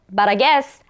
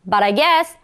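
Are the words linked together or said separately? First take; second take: linked; linked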